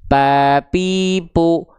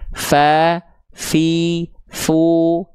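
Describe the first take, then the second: First: Both lips close, giving a p sound. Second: Teeth touch lip, giving a breathy f sound. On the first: The speaker calls it wrong. "Pa pipu kalau bibir yang nempel jadinya huruf P" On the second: The speaker calls it right. "dia ketika nempelnya tepat, dia harus mengalir nafas"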